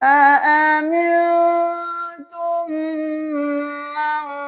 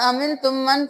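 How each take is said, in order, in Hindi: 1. n और m पर नाक की आवाज़ लंबी खींची जाती है। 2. नाक की आवाज़ जल्दी काटी जाती है, खींची नहीं जाती। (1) "देर लगाए नून पे भी मीम पे भी" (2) "फिर ऐसे नहीं करना"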